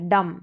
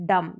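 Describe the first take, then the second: Both takes have the same delivery.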